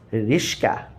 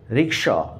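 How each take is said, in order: First: The sh sound comes before the k sound. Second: The k sound comes before the sh sound. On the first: "they actually pronounce Rishka" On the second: "they cannot pronounce rickshaw"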